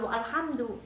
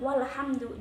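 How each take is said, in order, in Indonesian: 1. Hentian glotal memisahkan wa dari alhamdu. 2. Wa langsung menyambung ke lhamdu tanpa hentian. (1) "bukan walhamdu, malah nggak enak didengar" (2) "Maka enakan didengar walhamdu"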